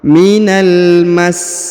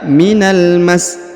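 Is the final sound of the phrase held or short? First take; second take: held; short. First: The final sound is held for about two beats. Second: The final sound is cut short, not held. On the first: The speaker calls it right. "tapi ditahan sedikit, kurang lebih dua harokat" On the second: The speaker calls it wrong. "jadi tidak dibaca minal mas"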